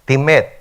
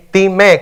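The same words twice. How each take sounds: First: Said in the usual way. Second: Timé said slowly, tí-MÉ, stress landing on the final E. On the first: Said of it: "Timé, con acento en la E". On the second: Shown as a demonstration. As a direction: lean on the last syllable of Timé, ti-MÉ. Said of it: "con acento en la E".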